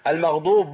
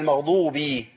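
First: The word ends without a final i vowel. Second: The word ends with a final i vowel. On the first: The speaker calls it wrong. "المغضوب لا" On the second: The speaker calls it right. "هي المغضوبي"

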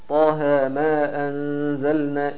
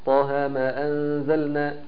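First: The vowel of 'ma' is held two counts. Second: The same.

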